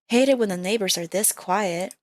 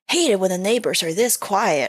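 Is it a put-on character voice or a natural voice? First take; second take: natural voice; character voice. First: It is said in the natural voice. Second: It is said in a put-on character voice.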